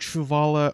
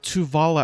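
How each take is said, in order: First: The name begins with a 'tr' sound. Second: The name begins with a plain 't' sound. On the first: The speaker calls it wrong. "I keep pronouncing it Truvala, I do apologize" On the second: The speaker calls it right. "or Tuvala"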